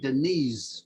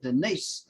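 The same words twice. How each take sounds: First: The name ends with a Z sound. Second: The name ends with an S sound. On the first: "We would say Denise, like with a Z" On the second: "we didn't pronounce it Denise"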